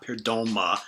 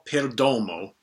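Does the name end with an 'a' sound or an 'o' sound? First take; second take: a; o. First: The name ends with an 'a' sound. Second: The name ends with an 'o' sound. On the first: The speaker calls it wrong. "not Perdoma" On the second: The speaker calls it right. "the artist I'm talking about is [name]"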